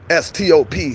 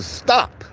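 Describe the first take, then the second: First: "S T O P," each letter spoken separately and deliberately; spelled out. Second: "stop." said high and falling hard, as a firm command; emphatic stop. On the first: Shown as a demonstration. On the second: Real, not acted. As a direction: snap out "stop." in a raised pitch. Urging viewers to stop.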